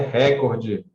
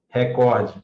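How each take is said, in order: First: The stress falls on the first syllable. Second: The stress falls on the second syllable. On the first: The speaker calls it wrong. "Não é recorde. Para de querer ser americano do norte" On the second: The speaker calls it right. "A pronúncia correta é recorde"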